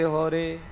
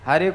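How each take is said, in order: First: The first vowel is said as 'o'. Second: The first vowel is said as 'a'.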